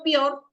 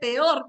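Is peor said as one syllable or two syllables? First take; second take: one syllable; two syllables. First: The word is squeezed into one syllable. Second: The word is split into two syllables. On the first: The speaker calls it wrong. "peor es un solo sonido" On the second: The speaker calls it right. "Estoy dando énfasis a la sílaba tónica"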